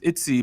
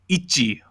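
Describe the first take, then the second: First: The name is said with English pronunciation. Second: The name is said with Korean pronunciation. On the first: "the English way to pronounce the name is ITZY" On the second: "but in Korean, it's like Ichi"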